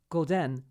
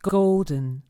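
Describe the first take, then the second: First: The stress is on the second syllable. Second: The stress is on the first syllable. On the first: The speaker calls it wrong. "stress the second syllable of golden and say something like golden" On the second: The speaker calls it right. "you must place a strong stress on the first syllable and let the second one go"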